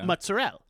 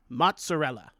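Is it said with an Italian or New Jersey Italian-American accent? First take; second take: New Jersey; Italian. First: It is said New Jersey style, dropping the end. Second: It is said with an Italian accent.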